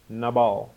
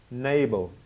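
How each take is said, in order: First: Nabal as nuh-BAHL; Hebrew pronunciation. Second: Nabal as NAY-bul; Anglicised pronunciation. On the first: Preacher prompting his listeners, Nabal the Hebrew way, nuh-BAHL. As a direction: give Nabal an open AH in the last syllable. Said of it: "is the Hebrew word nabal". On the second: Preacher trying the listeners' way of saying Nabal, NAY-bul. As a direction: stress Nabal up front with a long A. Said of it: "trying to get your accent right". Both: Shown as a demonstration.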